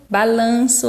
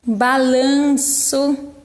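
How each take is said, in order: First: Said in the usual way. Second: "balanço" drawn out very slowly with the nasal "an" held; slow, stretched demo. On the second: Shown as a demonstration. ("balanço" bem devagar, destacando o som nasal) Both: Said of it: "é um som nasal".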